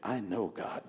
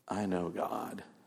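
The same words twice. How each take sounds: First: It is said humbly and modestly. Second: It is said boastfully, with attitude.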